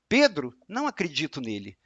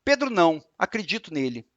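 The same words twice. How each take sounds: First: "Pedro," then a pause, "não acredito nele" in one run; pause after Pedro. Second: "Pedro não," then a pause, "acredito nele"; pause after não. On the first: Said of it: "e eu falar". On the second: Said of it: "se eu falar assim, ó". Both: Shown as a demonstration.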